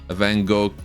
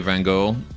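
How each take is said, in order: First: The name is said with Dutch sounds. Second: The name is said with English sounds. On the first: This is the original pronunciation of the name. "I know how to actually pronounce his name" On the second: This is how most English speakers say it. "everyone knows what I mean when I say Van Gogh"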